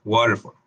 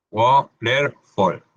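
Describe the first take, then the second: First: Waterfall said quickly, fall like fol; quick English demo. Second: Waterfall stretched out very slowly, fall like fol; very slow English demo. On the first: Teacher models the word quickly for students. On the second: Teacher slowly models the word for students. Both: Shown as a demonstration. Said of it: "En la letra A".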